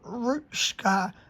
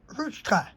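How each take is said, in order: First: The middle consonant is not a plain ch. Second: The middle consonant is a plain ch. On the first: The speaker calls it wrong. "not ruchka" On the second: The speaker calls it right. "but ruchka. With just the ch"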